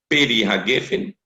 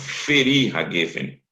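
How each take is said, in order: First: The first word begins with a p sound. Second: The first word begins with an f sound. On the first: The speaker calls it wrong. "vem com um ponto dentro" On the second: The speaker calls it right. "então vou ler borê, feri, não mais peri"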